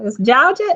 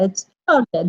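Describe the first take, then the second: First: Georgia with a light Southern twang. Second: A broad Southern "Georgia" with the r dropped: "Jaw-ja". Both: Shown as a demonstration. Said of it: "little Southern twang in it".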